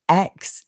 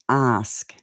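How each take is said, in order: First: The word ends with a 'ks' sound. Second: The word ends with an 'sk' sound. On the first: The speaker calls it wrong. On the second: The speaker calls it right.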